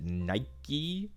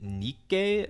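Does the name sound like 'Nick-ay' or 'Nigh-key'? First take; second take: Nigh-key; Nick-ay. First: The name is said like 'Nigh-key'. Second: The name is said like 'Nick-ay'. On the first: The speaker calls it wrong. "pronounced like the actual Nike Goddess of Victory, but no" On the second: The speaker calls it right. "I think it's Nikkei"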